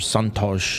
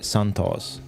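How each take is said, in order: First: The name is said with a Brazilian pronunciation. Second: The name is said with an English pronunciation.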